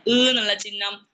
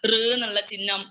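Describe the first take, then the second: First: ഋ എന്നുള്ള ചിഹ്നം said slower and louder, stressing ഋ; slow emphatic repeat. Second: Said in the usual way. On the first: Shown as a demonstration. Teacher to students, repeating the sign slowly and loudly. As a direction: drill ഋ slowly for the class. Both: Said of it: "ഇതൊന്നും കുട്ടികൾക്ക് അറിയില്ല".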